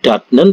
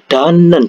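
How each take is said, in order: First: The first syllable ends in a t sound. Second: The first syllable ends in an n sound. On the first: The speaker calls it wrong. "bukan datnen" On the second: The speaker calls it right. "tapi dibaca danen"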